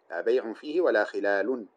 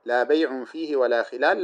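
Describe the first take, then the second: First: Teacher reads the alternate vowelling with final u endings; second reading. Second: لا بيع فيه ولا خلال with بيع as the stressed, clearly marked word; teacher reads the first permitted vowelling of لا بيع فيه; first reading. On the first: Teacher demonstrating the second vowelling, ending words in u. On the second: Teacher demonstrating the first vowelling of the phrase to students. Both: Shown as a demonstration. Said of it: "وتقوليها بالوجهين".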